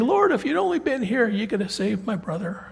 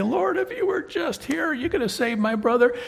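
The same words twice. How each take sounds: First: Plead, then let it fall away; second sister. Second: High, pleading sister's voice; grieving sister. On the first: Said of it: "she says the exact same thing". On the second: Martha pleads with Jesus over her brother, high and pleading. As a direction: beg him as the grieving sister. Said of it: "she's gonna say". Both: Acted.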